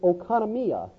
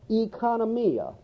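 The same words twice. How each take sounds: First: It is said at normal speed, Greek-style. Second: It is said slowly, with an English-sounding vowel. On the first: "the Greek word is oikonomia" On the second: "a little bit slower and a little bit of American slang"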